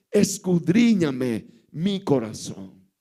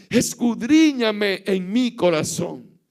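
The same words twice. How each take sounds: First: "Escudriñame" drawn out slowly and low, pleading. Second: Said in the usual way. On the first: Shown as a demonstration. The preacher repeats David's plea to God, slow and low. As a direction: lean hard and low on "Escudriñame". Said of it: "David le dice a Dios". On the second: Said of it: "Pero él le dice a Dios".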